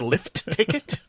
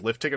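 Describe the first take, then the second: First: The T at the end of lift is pronounced. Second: The T at the end of lift is dropped. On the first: The speaker calls it right. "You mean lift ticket?" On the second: The speaker calls it wrong. "someone says lift ticket, I'm like, who?"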